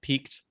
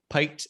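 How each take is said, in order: First: The vowel rhymes with 'seek'. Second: The vowel rhymes with 'bike'. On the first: The speaker calls it right. "instead of peaked" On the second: The speaker calls it wrong. "I said piked"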